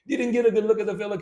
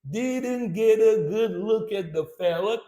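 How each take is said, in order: First: The line is spoken quickly. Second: The line is spoken very slowly. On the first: "Now let's speed it up" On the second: "Let's do it super slow"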